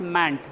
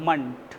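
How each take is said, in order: First: The syllable has a full, open vowel. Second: The syllable has a short, reduced vowel. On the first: The speaker calls it wrong. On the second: The speaker calls it right.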